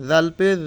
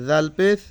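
Both takes have the same delivery.

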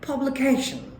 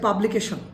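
First: It is said with one syllable pitched high. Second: It is said with flat Bengali-style pitch. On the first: The speaker calls it right. "এজ Real pronunciation" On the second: The speaker calls it wrong. "বাংলাদেশের এটা উচ্চারণ করছে"

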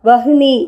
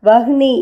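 No difference in how they are said.

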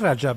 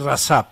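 First: The middle consonant is a 'j' sound. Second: The middle consonant is an 's' sound. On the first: This is how the name was said earlier. "au départ, on disait Rajab" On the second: This is how the name is said now. "mais maintenant, on dit Rasap"

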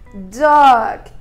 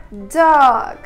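First: The vowel is long and drawn out. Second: The same.

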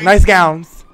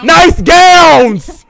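First: It is said fairly quietly. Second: It is said much louder.

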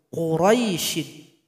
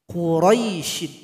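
No difference in how they are said.

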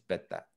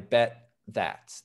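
First: No pause separates 'bet' and 'that'. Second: A pause separates 'bet' and 'that'. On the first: The speaker calls it right. "The T and the TH kind of come together" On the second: The speaker calls it wrong. "But definitely not, I bet that. There's really no pause there"

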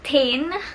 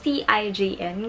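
First: The name is said like 'tain'. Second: The name is not said like 'tain'. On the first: "the right pronunciation is TIJN, which is spelled as T-A-I-N" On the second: "sasabihin ko na lang siya as TIJN kasi dun ako nasanay"

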